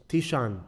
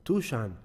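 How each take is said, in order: First: "Tishan" said with an ee vowel, TEE-shan; wrong name guess. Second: "Tushan" said with an oo vowel, TOO-shan; corrected name. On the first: Host guessing a boy's name, says "Tishan" with ee. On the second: Host taking the brother's correction, "Tushan" with oo. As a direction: settle on "Tushan" with oo in the first syllable. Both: Real, not acted. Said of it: "Correct me, brother".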